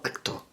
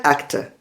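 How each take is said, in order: First: "acto" with a full Spanish O at the end; wrong O ending. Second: "acta", English actor with a weak schwa at the end; correct schwa ending. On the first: Teacher shows what to avoid, "acto" with a wrong O ending. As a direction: say the mistaken "acto", final vowel a clear O. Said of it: "y no acto". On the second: Teacher reminds learners how it is pronounced, "acta" with schwa ending. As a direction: say "acta" stressed first, last vowel reduced. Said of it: "te acordarás de que se pronuncia". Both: Shown as a demonstration.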